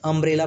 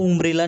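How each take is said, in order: First: The first vowel is a short 'uh' sound. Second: The first vowel is an 'oo' sound. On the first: The speaker calls it right. "अम्ब्रेला में देखिए यू का उच्चारण अ हो रहा है" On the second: The speaker calls it wrong. "इसको उम्ब्रेला नहीं पढ़ते"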